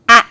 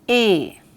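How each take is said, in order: First: The letter is said as its letter sound. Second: The letter is said as its alphabet name. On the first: "The sound of the letter A is A" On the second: "The letter name is A"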